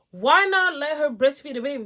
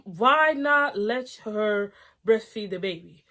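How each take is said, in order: First: WHY pushed higher and louder; emphatic repeat. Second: Slowed reading of the line; reading the post out slowly; slow plain reading. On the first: Repeating the husband's question to viewers, emphatic. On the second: Reading the post to viewers, slow and plain. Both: Shown as a demonstration. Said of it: "That's what I'm thinking".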